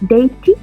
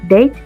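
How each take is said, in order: First: The final e is sounded as an extra syllable. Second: The final e is silent, one syllable. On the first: The speaker calls it wrong. "no decimos" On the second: The speaker calls it right. "solo decimos date"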